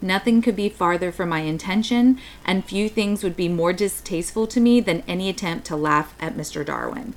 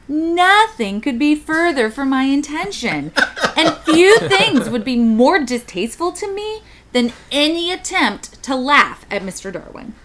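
First: It is read in a sincere tone. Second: It is read in a mocking tone.

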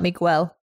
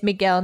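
First: The g is followed by a w sound. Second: The g is plain, with no w sound. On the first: The speaker calls it wrong. "not Miguel" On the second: The speaker calls it right. "It's Miguel"

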